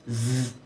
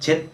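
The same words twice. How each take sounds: First: The consonant is a buzzing voiced z. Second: The consonant sounds like a Korean j. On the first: The speaker calls it right. "사실은 이 발음은 Z 이렇게 발음하시는 거예요" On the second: The speaker calls it wrong. "우리나라에서는 그냥 Z 이렇게 발음을 하거든요"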